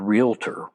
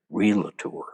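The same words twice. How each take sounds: First: The word is said with two syllables. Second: The word is said with three syllables.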